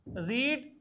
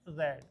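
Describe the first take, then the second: First: The vowel is long, as in reed. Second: The vowel is short, as in red. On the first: It is the present-tense first form. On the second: It is the past-participle third form.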